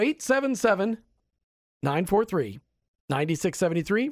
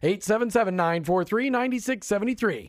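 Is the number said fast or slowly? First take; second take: slowly; fast. First: The number is said slowly. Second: The number is said quickly.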